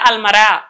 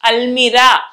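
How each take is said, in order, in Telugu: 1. మధ్య అచ్చు 'uh'కి తగ్గిపోయింది. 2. మధ్య అచ్చు స్పష్టమైన 'ee' శబ్దం.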